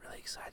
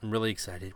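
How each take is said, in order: First: It is said very quietly, almost whispered. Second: It is said at normal speaking volume.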